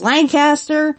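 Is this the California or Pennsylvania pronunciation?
California. It is said the California way.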